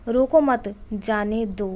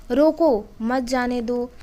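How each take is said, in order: First: रोको मत run together slowly, then a pause before जाने दो; shifted comma pause. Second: रोको said alone with a clear pause, then मत जाने दो; pause after roko. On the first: Teacher slowly reading the second comma placement for students, pausing before जाने दो. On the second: Teacher reading the first comma placement to students, pausing after रोको. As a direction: break right after रोको, as if commanding to stop. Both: Shown as a demonstration. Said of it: "तो इस तरह से आप दो अर्थों में इसको बता सकते हैं".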